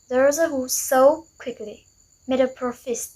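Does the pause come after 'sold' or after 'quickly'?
after sold. The pause comes after the word sold. Those who sold made a profit quickly. "meaning a profit was quickly made by those who sold"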